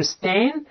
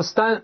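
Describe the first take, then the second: First: "stan" drawn out with an open æ; open æ vowel. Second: "stan" mispronounced like Chinese 单; wrong vowel demo. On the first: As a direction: stretch stan slowly on the æ of "cat", jaw dropped. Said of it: "这是梅花音". (正确读stan，拉长梅花音æ) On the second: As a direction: say stan wrongly, rhyming with Mandarin dān. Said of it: "读成单元房的单". (错读stan，读成单元房的“单”) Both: Shown as a demonstration.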